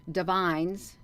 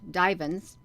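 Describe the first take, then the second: First: "divines" as duh-VINES, stress on the second syllable; unsure pronunciation. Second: "divans" as DIE-vunz, stress on the first syllable; alternative pronunciation. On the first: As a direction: try "divines" with a long i in the last syllable. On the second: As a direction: correct yourself to "divans", long i up front. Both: Shown as a demonstration. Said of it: "I don't know how to pronounce that".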